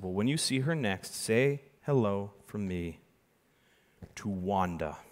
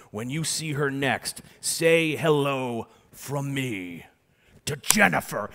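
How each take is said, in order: First: Drawn-out hushed reveal; slow gentle magician reveal; slow quiet reveal. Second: Drawn-out showman's reveal; milk the reveal, slow and grand; slow theatrical magician reveal; slow dramatic reveal. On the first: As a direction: let the name land softly. Retold second reveal. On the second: Dramatic reveal line to guest. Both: Retold or imitated.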